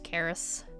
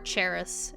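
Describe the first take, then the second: First: The name begins with a K sound. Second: The name begins with a Ch sound. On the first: The speaker calls it right. "it's just" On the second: The speaker calls it wrong. "everyone pronounces it"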